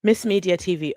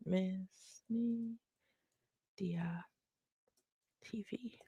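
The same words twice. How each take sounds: First: Said in the usual way. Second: Soft, slow, voiceless murmur to herself; whisper while typing. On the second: Real, not acted. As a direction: mouth it under your breath as you type. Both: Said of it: "Let me type it".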